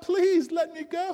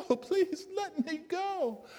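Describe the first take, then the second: First: Tiny high voice, begging with a rising end; trapped creature asking to be let go; high pleading plea, rising; pleading little voice. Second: Tiny high voice, slow and softer, falling away; the trapped creature giving up hope; high slow drooping plea; fading plea. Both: A narrator's reading. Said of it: "there's this voice saying".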